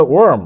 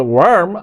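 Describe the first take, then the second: First: British "warm"; "warm" in British style; British pronunciation. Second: American "warm", with the R sounded; "warm" in American style; American pronunciation. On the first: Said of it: "আর ব্রিটিশরা বলে warm". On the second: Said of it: "উচ্চারণটা কিন্তু আমেরিকানরা বলে warm". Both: Shown as a demonstration.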